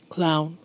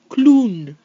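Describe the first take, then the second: First: English pronunciation, with the final N cut short. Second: French pronunciation, with the final N fully held. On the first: "how we say these words in English" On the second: "I'm going to read the French version of these words"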